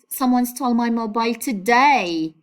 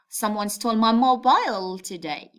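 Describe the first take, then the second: First: The stress falls on the word today. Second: The stress falls on the word mobile. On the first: The point of interest is when it happened. "stress the word today" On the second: The point of interest is the phone itself. "you make a stress on it"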